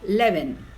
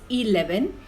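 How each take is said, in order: First: The first E vowel is silent. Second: The first E vowel is sounded. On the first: The speaker calls it right. "Right pronunciation is" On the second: The speaker calls it wrong. "Wrong pronunciation is"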